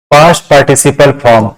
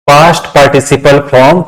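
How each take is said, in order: Both takes have the same delivery.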